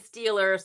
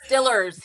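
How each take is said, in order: First: It is said with a non-local, standard pronunciation. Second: It is said with the local Pittsburgh pronunciation. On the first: This marks the speaker as from out of town. "I still say Steelers. That's how you know I'm from out of town" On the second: This is how local people say it. "I guess they say it's Stillers here"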